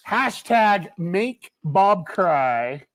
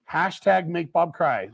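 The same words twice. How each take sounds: First: Hashtag make Bob cry stretched very slowly, each word spaced out; drawn-out slogan. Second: Said in the usual way. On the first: Shown as a demonstration. Host spelling out the campaign hashtag for viewers, slow and deliberate. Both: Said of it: "so this is what we're gonna do".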